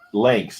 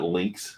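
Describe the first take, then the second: First: The vowel sounds like the one in 'cat'. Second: The vowel sounds like the one in 'sit'. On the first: The speaker calls it right. "Lanks, not links" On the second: The speaker calls it wrong. "not links"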